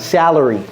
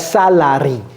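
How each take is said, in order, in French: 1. Le mot se prononce avec des voyelles anglaises. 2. Le mot se prononce avec des voyelles françaises. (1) "Vous voyez comment je prononce le deuxième A?" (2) "Donc ce n'est pas salary"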